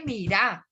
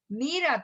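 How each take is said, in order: First: "mirá" with the stress on RÁ; stress on last syllable. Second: "Mira" stressed on MI, Bogotá way; stress on first syllable. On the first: Teacher showing the valluno shift, "mirá" stressed on RÁ. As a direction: valluno "mirá", leaning on the final A. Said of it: "el bayuno le cambia a uno el acento". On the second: Teacher showing how Bogotá says it, "Mira" stressed on MI. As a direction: say "Mira" as MI-ra, falling away after MI. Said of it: "el acento va sobre la primera". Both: Shown as a demonstration.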